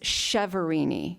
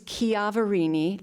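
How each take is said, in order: First: The surname is said the Americanized way. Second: The surname is said the Italian way. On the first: "the Americanized version is" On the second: "the Italian pronunciation is"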